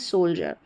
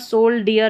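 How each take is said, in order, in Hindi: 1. बीच का हिस्सा j की ध्वनि की तरह बोला जाता है। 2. बीच का हिस्सा d और फिर ee की तरह बोला जाता है। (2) "सोल डियर नहीं पढ़ते हैं"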